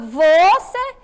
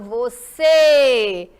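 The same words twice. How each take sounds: First: The stress is on the first syllable. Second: The stress is on the last syllable.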